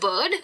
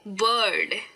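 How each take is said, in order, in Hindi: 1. यह शब्द जल्दी बोला गया है, कोई R सुनाई नहीं देता। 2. यह शब्द धीरे बोला गया है, हल्के R के साथ। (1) "जब मैं फास्ट बोलूंगी तब ये सुनाई नहीं देगा" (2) "धीरे कह रही हूँ"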